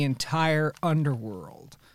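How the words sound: It is said in a dramatic narrator voice. The speaker calls it wrong. "He doesn't use my Brad Neely impression of narrator voice"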